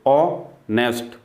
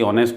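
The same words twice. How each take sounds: First: honest slowly, ऑ, pause, nest; split into syllables. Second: Said in the usual way. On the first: Shown as a demonstration. Teacher showing more than one syllable, word broken up. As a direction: break honest after the first sound. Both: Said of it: "यहाँ syllable एक से ज़्यादा है".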